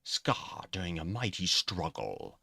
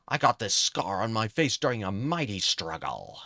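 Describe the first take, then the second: First: Slow, badly faked British accent. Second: Said in the usual way. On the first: Shown as a demonstration. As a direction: rehearse a crummy British accent. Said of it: "uh, bad British ac". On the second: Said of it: "I was gonna do a British accent".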